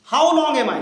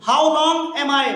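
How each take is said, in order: First: Said in the usual way. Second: Drawn out, word by word; teacher drilling the question slowly for students; slow model reading. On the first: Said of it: "normal-pace repeat". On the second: Shown as a demonstration. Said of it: "teacher models the question slowly".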